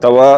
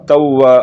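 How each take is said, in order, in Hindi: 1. w की आवाज़ छोटी और इकहरी है। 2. w की आवाज़ को रोककर दोहराया जाता है। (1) "बगैर तशदीद के है" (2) "मुशद्दद लफ्ज दो मरतबा पढ़ा जाता है"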